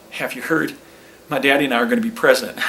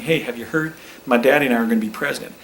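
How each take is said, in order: First: Put-on quick boyish boast; mock eager young Bush, rushing the line; lightly voiced excited son; impersonating George W. Bush. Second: Eager boast, rushed at the end; mock young Bush bragging to every table; a hint of a boyish Bush; impersonating George W. Bush. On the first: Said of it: "let me try that again". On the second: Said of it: "what I was going for there".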